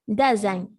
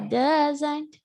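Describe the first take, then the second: First: The final T sound is dropped. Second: The final T sound is clearly pronounced. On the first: "Native people normally don't pronounce the T. They say only don't, doesn't" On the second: "If you want to pronounce, no problem. You can say don't or doesn't"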